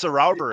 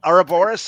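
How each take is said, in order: First: "Ouroboros" said as oh-ROW-ber-us, ROW rhyming with cow; alternate pronunciation. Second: "Ouroboros" said as oro-BOR-us; alternate pronunciation. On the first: Guest showing both pronunciations, "Ouroboros" as oh-ROW-ber-us. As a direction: stress a "rou" as in round in "Ouroboros". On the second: Guest showing both pronunciations, "Ouroboros" as oro-BOR-us. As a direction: say "Ouroboros" with a BOR in the middle, lifting at the end. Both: Shown as a demonstration. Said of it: "I've heard that pronounced both ways".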